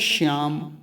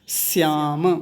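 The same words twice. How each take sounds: First: The word begins with an sh sound. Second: The word begins with a dental s sound. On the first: The speaker calls it wrong. "वो श्याम तो बोलना नहीं है" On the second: The speaker calls it right. "क्योंकि दंत्य सकार लगा हुआ है"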